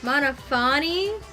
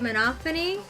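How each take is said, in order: First: The stress falls on the 'pha' syllable. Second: The stress does not fall on 'pha'. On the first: The speaker calls it wrong. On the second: The speaker calls it right.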